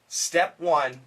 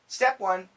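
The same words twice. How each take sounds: First: The phrase is spoken slowly. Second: The phrase is spoken at normal speed. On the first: "a little bit slow" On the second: "and then normal speed"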